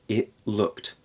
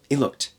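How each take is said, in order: First: Said at normal speed with a glottal stop. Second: Said quickly with no T or glottal stop. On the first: "If I speak it at a regular pace" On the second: "if I say it even faster"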